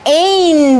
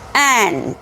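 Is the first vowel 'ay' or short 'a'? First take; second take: ay; short a. First: The vowel sounds like the letter name 'ay'. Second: The vowel is a short open 'a' sound. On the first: The speaker calls it wrong. "bukan ain bacanya" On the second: The speaker calls it right. "tetapi ant"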